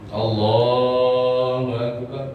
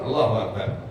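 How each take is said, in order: First: The vowel after the L is long. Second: The vowel after the L is short. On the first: The speaker calls it right. "bukan pendek tapi panjang" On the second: The speaker calls it wrong. "karena nggak membaca mad lafaz Allah"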